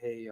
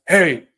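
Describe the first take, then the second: First: It is said quietly and hesitantly, low pitched. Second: It is said loudly and forcefully, almost shouted. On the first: The speaker seems desperate and needy. "That's weak tonality. Your voice is too low" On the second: The speaker seems aggressive. "too strong where you're like"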